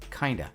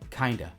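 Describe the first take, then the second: First: The words blend into one reduced word. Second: The words blend into one reduced word.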